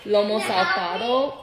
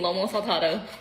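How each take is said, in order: First: The name is said slowly and carefully. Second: The name is said quickly and run together. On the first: The speaker calls it right. "when I take the time to say it slowly" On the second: The speaker calls it wrong. "When I say it really fast, it comes out all butchered"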